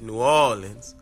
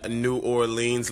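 First: The name is said the way locals say it. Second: The name is said the standard way.

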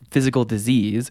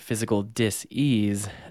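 First: The word 'disease' is said smoothly as one ordinary word. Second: The word 'disease' is split into 'dis' and a marked 'ease'. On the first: It means an illness. "calling it physical disease" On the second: It means not being at ease. "but then you change it to physical dis-ease"

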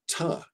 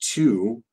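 First: The vowel is reduced to a schwa. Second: The vowel is a full oo sound. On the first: "we pronounce it ta with a schwa because it's unstressed" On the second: "teach to"

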